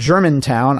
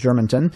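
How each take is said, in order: First: The last syllable is said as 'town'. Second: The last syllable is said as 'ton'. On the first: The speaker calls it right. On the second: The speaker calls it wrong.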